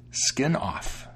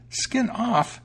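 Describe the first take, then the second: First: Dry, understated cat reply. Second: Very high, astonished mouse echo; exclaiming mouse. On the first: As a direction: deliver the name drily, without excitement. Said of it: "the cat said dryly". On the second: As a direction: squeal the name back in disbelief. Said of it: "exclaimed the mouse". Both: A narrator's reading.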